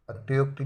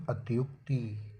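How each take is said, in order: First: अत्युक्ति with e-yo in the middle; wrong pronunciation. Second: Slow, softer अत्युक्ति with clear yu; correct pronunciation. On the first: Teacher rejects the misspelling, faulty middle vowel in अत्युक्ति. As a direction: loosen अत्युक्ति to at-ye-okti. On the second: Teacher gives the correction, slow falling अत्युक्ति. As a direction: draw out अत्युक्ति as at-yuk-tee. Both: Shown as a demonstration. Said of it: "अत्युक्ति नहीं".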